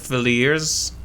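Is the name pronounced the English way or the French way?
English. The name is pronounced with an English sound. "don't speak any other language than English, so they might call it"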